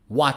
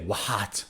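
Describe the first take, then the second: First: The word starts with no h sound. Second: The word starts with an audible h sound. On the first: The speaker calls it right. "it's H is not pronounced" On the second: The speaker calls it wrong. "so we don't say what"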